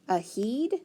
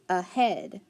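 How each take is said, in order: First: The second syllable has a long 'ee' vowel. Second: The second syllable has a short 'eh' vowel. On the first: The speaker calls it wrong. "I'm going to try the long E" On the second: The speaker calls it right. "Let's try the short E"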